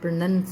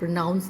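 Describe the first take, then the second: First: The second syllable has the vowel of 'nun'. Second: The second syllable has the vowel of 'now'. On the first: The speaker calls it right. "प्रोनंस होता है" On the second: The speaker calls it wrong. "प्रोनाउंस नहीं होता"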